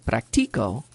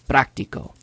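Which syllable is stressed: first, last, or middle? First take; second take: middle; first. First: The stress is on the middle syllable. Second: The stress is on the first syllable. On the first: The speaker practices. "the tonic syllable ... is the second to last" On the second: It names the thing itself. "there's a written accent"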